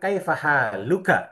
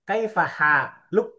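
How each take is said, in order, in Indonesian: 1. Kata terakhir berakhir dengan vokal penuh. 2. Kata terakhir berakhir tanpa vokal akhirnya. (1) "harusnya kan kaifa haluka" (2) "huruf terakhirnya dimatikan"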